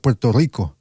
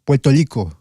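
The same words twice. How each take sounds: First: "Puerto Rico" with its normal R sounds; "Puerto Rico" with proper R; standard R. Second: "Puerto Rico" as "Puelto Lico", R turned to L; "Puerto Rico" pronounced Puelto Lico; Puerto Rican L. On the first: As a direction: say "Puerto Rico" with clear rolled R. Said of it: "instead of". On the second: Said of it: "they don't say the L". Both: Shown as a demonstration.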